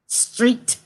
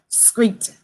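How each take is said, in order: First: The word begins with a 'str' sound. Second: The word begins with a 'skr' sound. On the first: The speaker calls it right. "S T R E E T" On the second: The speaker calls it wrong. "They say street with a C in it"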